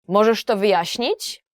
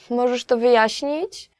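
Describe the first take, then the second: First: It sounds angry and demanding. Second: It sounds like a polite request for a favor.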